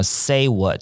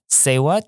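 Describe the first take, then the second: First: It is said in a plain, textbook style. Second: It is said in a casual, drama-show style. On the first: The speaker calls it wrong. "不是什么say what" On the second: The speaker calls it right. "你的口音要像这样子哦"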